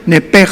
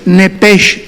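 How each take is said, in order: First: The word ends with a throaty Spanish 'j' sound. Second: The word ends with a soft 'sh' sound. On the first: "se pronuncia como J" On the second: "tal como suena"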